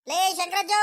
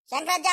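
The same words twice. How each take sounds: First: ಲೇ ಶಂಕರಜ್ಜ called out higher, stretching ಲೇ; calling out. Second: Said in the usual way. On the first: Acted. Rangajja calls his friend from outside the house, higher call.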